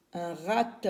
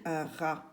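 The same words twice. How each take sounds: First: "Un rat" with the silent T wrongly pronounced; wrongly sounded final T. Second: Said in the usual way. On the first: Shown as a demonstration. Teacher showing children the misreading, final T sounded in "rat". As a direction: say "rat" like "ratte", ending on an audible T. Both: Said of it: "on ne lit pas un rat".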